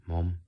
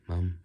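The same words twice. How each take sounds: First: Said in the usual way. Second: "Mum" with a short British uh vowel; "Mum" as in British English. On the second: Shown as a demonstration. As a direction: say "Mum" the British way, rhyming with "hum". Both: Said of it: "I should have said my mum".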